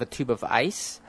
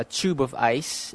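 First: "tube" as "toob", American style; yod dropped. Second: "tube" as "tyoob", with a liquid U; no yod dropping. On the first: Showing the form people avoid, "tube" as "toob". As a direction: say "tube" with no y-glide after the T. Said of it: "instead of". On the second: Showing the preferred Manila form, "tube" as "tyoob". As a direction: say "tube" with a y-glide after the T. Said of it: "there's usually no jaw dropping". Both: Shown as a demonstration.

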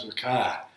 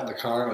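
First: "car" as Boston "cah"; "car" ending in an open vowel, no R; R dropped in car. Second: "car" with a clear final R; "car" said rhotic, as "carr"; R sounded in car. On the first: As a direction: leave the R off the end of "car". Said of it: "or sometimes". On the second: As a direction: pronounce the R at the end of "car". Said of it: "saying the, the R's like that". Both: Shown as a demonstration.

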